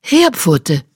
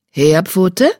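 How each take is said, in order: First: Mentor's falling call; calling by name. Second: Name called as a question, rising sharply at the end; mentor's questioning call. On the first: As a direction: call the name firmly, dropping at the end. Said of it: "Ihre Stimme kam näher". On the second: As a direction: call out searchingly, voice lifting on the last syllable. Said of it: "hörte seine Mentorin Blattsee". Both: A narrator's reading.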